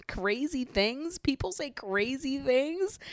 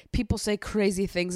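First: Slow, high, rising questions; incredulous echo. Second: Said in the usual way. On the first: Acted. Recapper throwing Olivia's excuse back at her, incredulous. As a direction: draw it out in scandalised disbelief.

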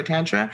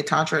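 First: Tantra said TAN-truh; flat "a" of "cat" in Tantra; Midwestern short A. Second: Tantra said TAHN-truh; first-vowel AH. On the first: Voicing people's question, Tantra as TAN-truh. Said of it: "I'm from the Midwest". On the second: Voicing people's question, Tantra as TAHN-truh. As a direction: open "ah" in the first syllable of Tantra. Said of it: "what should I say". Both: Shown as a demonstration.

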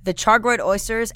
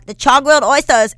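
First: Said in the usual way. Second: "char grilled oysters" with dropped r's, like "chahg-willed oystuhs"; louder, R-less "oysters" in a silly accent; playful put-on pronunciation. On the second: Listing dishes for viewers, "char grilled oysters" in playful r-less pronunciation.

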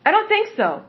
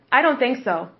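First: Sarcastic higher echo; higher mocking repeat. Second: Said in the usual way. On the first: Shown as a demonstration. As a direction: repeat it pitched up, scoffing.

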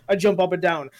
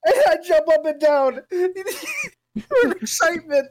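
First: Said in the usual way. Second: High, drawn-out excited squeal through laughter; hammed-up excitement. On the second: Redoing the joke line for friends, hammed-up excitement. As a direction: overdo the excitement, laughing, much higher. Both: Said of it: "I wanna do it more".

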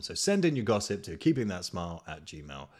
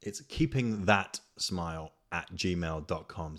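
First: Said in the usual way. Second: Slow and clear. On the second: Shown as a demonstration. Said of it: "no, no, sorry".

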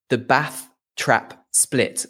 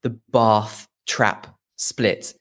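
First: Slow, spaced words, short A in "Bath"; "Bath" rhyming with "math", set out slowly. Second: Slow, spaced words, long AH in "Bath"; "Bath" with the vowel of "father", set out slowly. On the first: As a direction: say "Bath" with the same A as "Trap". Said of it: "a thing called". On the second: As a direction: say "Bath" as "bahth", unlike "Trap". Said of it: "I suppose it's actually called". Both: Shown as a demonstration.

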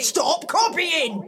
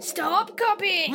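First: Higher, louder angry command. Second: Level cheeky echo; copycat mimicry. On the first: Acted. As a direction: shout it in frustration. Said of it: "Stop copying me". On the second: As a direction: parrot it back flatly.

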